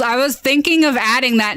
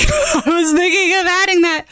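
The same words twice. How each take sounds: First: Said in the usual way. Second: Higher, laughing through the words. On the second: Real, not acted. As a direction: repeat it while cracking up. Repeats it, laughing at suggestion.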